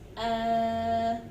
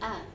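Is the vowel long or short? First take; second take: long; short. First: The vowel is held longer, about two beats. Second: The vowel is held briefly, about one beat. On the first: "that mad makes your hamza to be two seconds" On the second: "you say a for one second"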